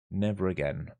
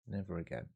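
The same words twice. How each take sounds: First: Said in the usual way. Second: Much softer, almost to himself; quiet vow. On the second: Real, not acted. Streamer regretting answering chat questions, said softly. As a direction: breathe it out as a rueful promise. Vowing after a distracted miss.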